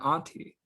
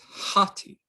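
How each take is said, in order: First: The word begins with a bare vowel. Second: The word begins with an h sound. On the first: The speaker calls it wrong. "It's not auntie" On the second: The speaker calls it right. "You see that uh, rough bruising mark on the omicron. So it's hati"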